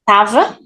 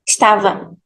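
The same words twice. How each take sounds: First: The first syllable is dropped, starting on t. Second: The first vowel is dropped, starting on s. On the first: "We can cut the first syllable" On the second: "for this second option, we just drop the first letter"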